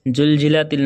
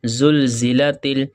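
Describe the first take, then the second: First: The second word begins with a 'j' sound. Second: The second word begins with a 'z' sound. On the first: The speaker calls it wrong. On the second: The speaker calls it right.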